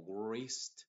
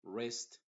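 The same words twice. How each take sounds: First: Wrist said with an extra sound before the R, like grist; a mistaken W or G sound added to wrist; wrong pronunciation. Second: Wrist said as rist, starting straight on the R; no W before wrist, just R; correct English. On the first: Teacher imitates the mistake, a sound before the R. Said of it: "no trate de pronunciarlo como wrist". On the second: Teacher models wrist from the R onward, W silent. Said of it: "desde la R hacia adelante". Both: Shown as a demonstration.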